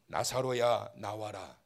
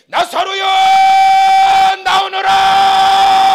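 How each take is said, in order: First: It is said quietly, without shouting. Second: It is shouted loudly.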